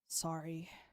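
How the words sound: It sounds disappointed, with a sigh.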